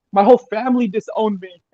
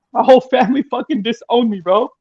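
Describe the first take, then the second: First: Said in the usual way. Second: Near tears, emotional. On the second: Real, not acted. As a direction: voice rising with real hurt, louder. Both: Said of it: "sorry, I'm crying".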